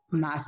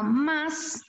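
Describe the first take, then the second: First: The word is said with weak stress. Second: The word is said with strong stress.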